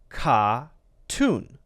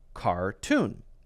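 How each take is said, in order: First: The R after the first vowel is dropped. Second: The R after the first vowel is clearly pronounced. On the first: "And Ronnie would say, says ka-tune, ka-tune" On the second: "Americans would say car, er, same er, tune, cartoon"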